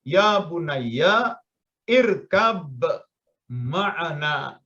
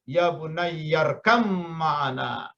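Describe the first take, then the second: First: Each word is read separately, with the glottal stop and b kept. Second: The words run together, glottal stop dropped, b becomes m. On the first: "Kalau Anda baca satu-satu" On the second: "Tapi kalau dibacanya sambung"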